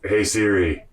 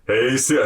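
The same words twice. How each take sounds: First: It is said fairly quietly. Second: It is said loudest of all.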